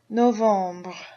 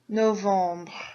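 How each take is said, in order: The two takes are said the same way.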